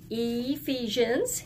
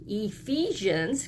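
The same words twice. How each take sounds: First: Ephesians said slowly with a long E at the start. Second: Ephesians said slowly, the long E sound leading. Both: Shown as a demonstration. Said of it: "It sounds like a long E".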